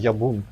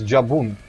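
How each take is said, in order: First: The name begins with a Y sound. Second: The name begins with a J sound.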